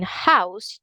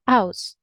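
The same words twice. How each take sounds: First: "house" with a breath of H at the start; H pronounced. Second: "house" starting straight on the vowel, as "ouse"; H dropped. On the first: Teacher gives standard form, "house" with its H. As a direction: sound the H of "house". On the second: Teacher shows Cockney, "house" without its H. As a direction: drop the H of "house". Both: Shown as a demonstration. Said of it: "You're not going to pronounce the H".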